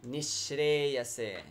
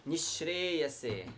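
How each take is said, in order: The two takes are said the same way.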